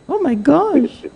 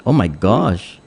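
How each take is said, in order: First: Oh my gosh in a high squealing put-on voice; shocked squeal at the caller's story; mock squeal. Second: Said in the usual way. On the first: Host reacts to caller's story.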